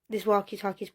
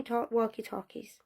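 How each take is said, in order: First: Said in the usual way. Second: Whispered, trailing off; hushed spooky whisper. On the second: Acted. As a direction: drop to a breathy whisper on it. Spooky aside about missing radios.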